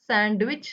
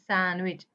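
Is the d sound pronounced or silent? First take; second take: pronounced; silent. First: The d sound is pronounced in the middle. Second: The d sound is silent in the middle. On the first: The speaker calls it wrong. "सँडविच नाही" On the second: The speaker calls it right. "डी चा उच्चार करायचा नाहीये"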